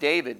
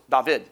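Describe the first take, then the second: First: The name is said the familiar English way. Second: The name is said an unfamiliar, non-English way. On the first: This is how it is said today. The speaker calls it wrong. "We pronounce it David" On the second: This is how it was said in biblical times. The speaker calls it right. "but it was not pronounced that way. It was David"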